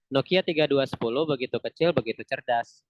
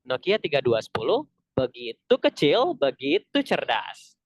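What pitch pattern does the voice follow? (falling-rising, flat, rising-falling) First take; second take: flat; falling-rising. First: The pitch stays flat throughout the phrase. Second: The pitch falls and then rises. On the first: "Intonasi yang pertama yang flat" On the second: "Ada juga dari turun ke naik"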